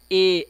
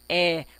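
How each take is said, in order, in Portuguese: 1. O som da vogal é feito com a boca fechada. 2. O som da vogal é feito com a boca aberta. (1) "não é um som de E" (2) "é de É, som aberto"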